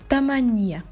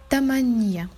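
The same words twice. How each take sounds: Both takes have the same delivery.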